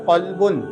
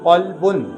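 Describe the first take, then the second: Both takes have the same delivery.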